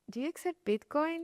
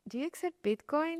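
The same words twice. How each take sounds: First: It is asked in a nervous, timid way. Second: The same.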